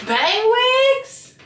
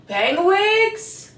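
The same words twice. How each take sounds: First: High, loud hyped call; hyped shout. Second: Rising, eager question; excited question. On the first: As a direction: sell it like a hype host. Louder hyped repeat. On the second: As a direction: ask it brightly. Excited repeat of product name. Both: Real, not acted.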